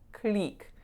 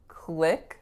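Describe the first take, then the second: First: The vowel is a tense, pure 'ee'. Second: The vowel is a short, relaxed 'ih'. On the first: The speaker calls it wrong. "click with a pure E vowel" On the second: The speaker calls it right. "click with a lax I vowel"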